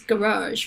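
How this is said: It is said in an American way, stressing the second syllable. "the U.S. is garage, right, with the second syllable stress"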